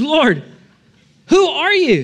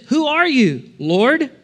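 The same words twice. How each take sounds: First: Much higher, louder cry of alarm on who; panicked question. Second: Higher, startled cry to an unseen voice; startled question. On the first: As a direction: blurt it out in sudden panic. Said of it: "So he says". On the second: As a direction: ask it blinded and shaken. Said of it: "And Saul says". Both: Acted.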